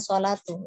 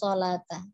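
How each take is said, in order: First: The word ends in an 'u' vowel. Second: The word ends in an 'a' vowel. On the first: The speaker calls it right. "Jadi seharusnya sholatu" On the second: The speaker calls it wrong. "dibacanya sholata"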